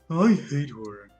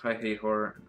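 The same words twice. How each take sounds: First: It is said in a put-on Natsuki voice. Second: It is said in a voice unlike Natsuki's.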